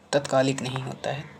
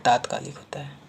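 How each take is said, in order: First: "तत्कालिक" with a short first vowel; teacher contrasting "तत्कालिक" as the wrong word; wrong short form. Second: "तात्कालिक" with a long आ, rising; teacher giving "तात्कालिक" as the right form; correct long form. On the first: ("तत्कालिक" छोटे अ के साथ, गलत रूप) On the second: ("तात्कालिक" लंबे आ के साथ, सही रूप) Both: Shown as a demonstration.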